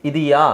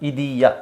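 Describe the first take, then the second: Both takes have the same delivery.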